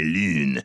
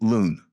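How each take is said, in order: First: The word is said with a French accent. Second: The word is said with an English accent. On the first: The speaker calls it right. "the French teacher says, no, no, no, c'est lune" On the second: The speaker calls it wrong. "what we want to say is lune"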